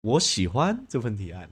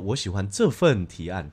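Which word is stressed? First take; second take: 喜欢; 这份. First: The stress is on 喜欢. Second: The stress is on 这份.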